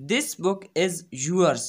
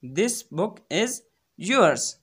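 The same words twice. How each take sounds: First: Very slow, word by word; careful classroom reading; slow teaching read. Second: Teacher lands on "yours"; stress on yours. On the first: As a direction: dictate it slowly. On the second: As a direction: hold back, then punch "yours". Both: Shown as a demonstration. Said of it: "अब ये".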